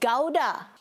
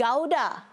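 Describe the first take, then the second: First: The word is said in a British accent. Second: The word is said in a British accent.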